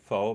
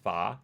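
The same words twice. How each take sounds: First: It is said the speaker's own everyday way. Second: It is said the way the speaker thinks natives say it. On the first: The speaker calls it wrong. "I pronounce it pho" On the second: The speaker calls it right. "it's really pronounced pho"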